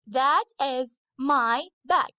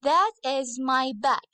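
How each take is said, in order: First: "That is my bag" said slowly, each word spaced out; slow model sentence. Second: Said in the usual way. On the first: Shown as a demonstration. Teacher to her girls, a slow careful model sentence. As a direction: spell it out slowly so the class can copy. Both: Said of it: "so I should use that".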